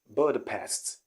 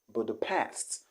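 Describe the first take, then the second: First: The stress is on the first syllable. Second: The stress is on the last syllable. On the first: The speaker calls it wrong. "the wrong pronunciation here is Budapest" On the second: The speaker calls it right. "The stress is at the last syllable"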